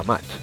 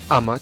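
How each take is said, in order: First: The stress is on the last syllable. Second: The stress is on the first syllable. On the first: The speaker calls it wrong. "nunca amat" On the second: The speaker calls it right. "decimos amat"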